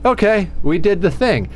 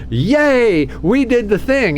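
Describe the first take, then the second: First: It is said flatly, without enthusiasm. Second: It is said with excited enthusiasm.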